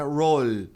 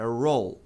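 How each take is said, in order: First: "roll" with a sound released after the L; wrong final L. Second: "roll" ending with tongue held on the L; killed final sound. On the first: Teacher shows what to avoid, unclean final L. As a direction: let the L of "roll" ring on as a vowel. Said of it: "não produz nenhum som de vogal". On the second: Teacher models for learners, closed final L. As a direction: stop "roll" on the L, no vowel after. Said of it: "Você mata o som". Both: Shown as a demonstration.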